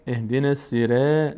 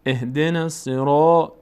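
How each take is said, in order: First: "سیره" chanted with a light "re" ending; wrong thin R. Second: "الصراط" with a dark, rounded "ro"; correct full R. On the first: Teacher shows learners the mistake, thin-R recitation. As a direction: recite it wrongly, fronting the vowel after ر in "سیره". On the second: Teacher corrects the thin version, full-R recitation. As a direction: chant slowly, making the ر of "الصراط" full and heavy. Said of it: "نه". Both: Shown as a demonstration.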